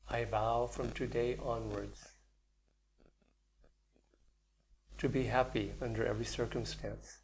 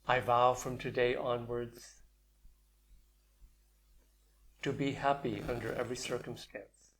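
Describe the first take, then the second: First: It is said more softly and deeply. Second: It is said at normal, louder volume.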